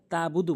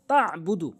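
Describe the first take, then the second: First: "তাবুদু" with a simple ta; missing ayn. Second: "তাবুদু" with ayn from mid-throat; correct ayn. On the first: Teacher repeating the mistake, "তাবুদু" without ayn. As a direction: drop the throat sound in "তাবুদু". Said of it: "আইন উচ্চারণ করে না". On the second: Teacher repeating the correction, "তাবুদু" with throat ayn. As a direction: press the throat after ta in "তাবুদু". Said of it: "বলতে হবে". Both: Shown as a demonstration.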